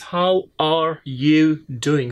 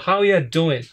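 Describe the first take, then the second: First: Each word of 'are you' is said separately. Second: 'Are you' is merged into one short 'ya' sound. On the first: "That means" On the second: "are you have been you know merged, and they are producing only just uh just a sound like yeah"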